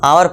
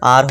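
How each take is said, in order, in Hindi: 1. इसे दो अक्षरों में बोला जाता है, जैसे 'ow-er'। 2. इसे एक अक्षर में बोला जाता है, जैसे 'ar'। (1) "इसको क्या पढ़ते हैं बहुत से लोग, आवर पढ़ते हैं" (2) "करेक्ट प्रोनाउंसिएशन"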